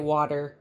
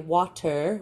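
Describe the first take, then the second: First: The middle t is a soft, d-like flap. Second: The middle t is a crisp, hard t. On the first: This is the easier form the speaker's group uses. "we say water. And it's like a much easier for to roll off the tongue" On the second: This is the form the speaker's group does not use. "we don't say water"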